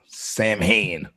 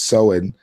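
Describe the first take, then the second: First: The word is said with an American-style pronunciation. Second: The word is said with its original, non-American pronunciation. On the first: The speaker calls it wrong. "That's how we uh, Amer- Americans would pronounce it nowadays" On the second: The speaker calls it right. "but it's Samhain"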